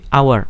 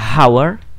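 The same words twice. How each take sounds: First: The word begins directly with a vowel. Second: The word begins with an audible h sound. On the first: The speaker calls it right. "dia dibacanya sebagai hour" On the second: The speaker calls it wrong. "dia nggak dibaca hour"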